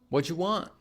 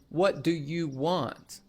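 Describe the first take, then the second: First: What do you is squeezed into whatcha. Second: What do you is said as three full words. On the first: "what do you becomes what'ya" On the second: "Instead of saying"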